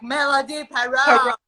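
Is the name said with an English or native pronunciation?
English. The name is said with English pronunciation. "But then I go to America"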